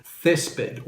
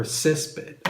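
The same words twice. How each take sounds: First: Césped starting with a th sound, as in think; th pronunciation. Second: Césped starting with an s sound; s pronunciation. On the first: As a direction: say césped as THES-ped. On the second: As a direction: say césped as SES-ped. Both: Shown as a demonstration. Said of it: "Césped or césped".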